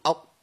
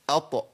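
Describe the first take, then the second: First: "أط" with the ط shut and unreleased; no qalqala. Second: "أط" with an echoing bounce on the ط; qalqala. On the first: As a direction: stop dead on the T of "أط", no bounce. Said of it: "لأن لو ما قلقلتش مش هتطلع الطاء". ("أط" بطاء ساكنة من غير قلقلة) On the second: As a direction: release the T of "أط" with a small bounce. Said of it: "يبقى قلقل". ("أط" بقلقلة الطاء) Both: Shown as a demonstration.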